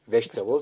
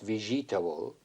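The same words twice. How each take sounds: First: One written syllable is dropped, making it shorter. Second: Every written syllable is pronounced fully. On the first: The speaker calls it right. "but we say it vegetable" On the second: The speaker calls it wrong. "not vegetable, it is written vegetable"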